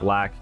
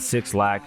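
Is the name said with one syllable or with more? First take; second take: One; More. First: The name is one syllable, like black. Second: The name begins with the word six. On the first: The speaker calls it right. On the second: The speaker calls it wrong. "I know people uh, would pronounce it Six Lack"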